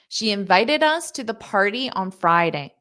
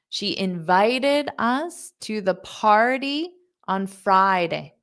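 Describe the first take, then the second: First: The sentence is spoken at a fast pace. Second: The sentence is spoken at a slow pace. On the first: "and fast"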